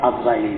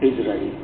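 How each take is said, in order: First: The name begins with an 'a' vowel. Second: The name begins with an 'i' vowel. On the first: It is the easier, common way to say it. The speaker calls it wrong. "আমরা আজরাইল বলি, বলতে সহজ" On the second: It follows the original Arabic vowel. The speaker calls it right. "আসলে সহি হইল ইসরাঈল"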